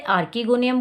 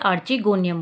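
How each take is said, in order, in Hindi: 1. दूसरी ध्वनि कठोर k है। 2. दूसरी ध्वनि ch है। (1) "कुछ लोग इसे आर्किगोनियम बोलते हैं" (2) "मेरे हिसाब से इसे आर्चिगोनियम बोलना चाहिए"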